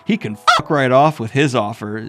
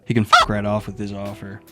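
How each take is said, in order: First: It is said in an agitated way. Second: It is said in a calm way.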